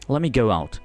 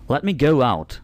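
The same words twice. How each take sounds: First: 'Let' and 'me' run together into one unit. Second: 'Let' and 'me' are said as separate words.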